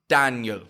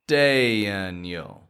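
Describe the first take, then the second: First: The name is said quickly and clipped. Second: The name is said slowly and drawn out. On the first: The speaker calls it wrong. "you're not going" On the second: The speaker calls it right. "you're slowing the sound down"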